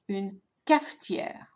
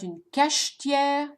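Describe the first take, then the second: First: The middle consonant is an f sound. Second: The middle consonant is a sh sound. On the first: The speaker calls it right. "So notice the f sound" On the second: The speaker calls it wrong. "it's not une cachetière"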